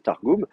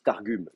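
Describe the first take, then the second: First: The second vowel is a back 'oo' sound. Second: The second vowel is a front rounded 'u'. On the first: The speaker calls it right. "ça se prononce ou" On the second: The speaker calls it wrong. "sinon les gens ils disent Targum"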